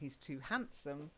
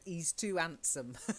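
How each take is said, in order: First: The H sounds are clearly pronounced. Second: The H sounds are left out. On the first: "instead of saying" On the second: "he said"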